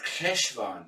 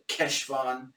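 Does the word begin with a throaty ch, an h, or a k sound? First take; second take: ch; k. First: It begins with a throaty ch sound. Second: It begins with a hard k sound. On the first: "it's K, as in the Germanic CH, like Bach" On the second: "pronounce it with a solid Keshvan"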